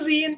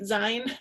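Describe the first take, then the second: First: The vowel matches the end of magazine. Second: The vowel differs from the end of magazine. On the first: The speaker calls it right. "it's a zine. It comes from the word magazine" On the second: The speaker calls it wrong. "have been pronouncing it zine"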